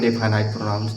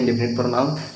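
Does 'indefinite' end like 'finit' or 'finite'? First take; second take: finite; finit. First: The word ends with a long 'ite' sound. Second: The word ends with a short 'it' sound. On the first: This is how the speaker says it. "हम इसको पढ़ते हैं इंडेफिनाइट प्रोनाउंस" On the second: This is how many other people say it. "इसको कई कई लोग इंडेफिनिट पढ़ते हैं"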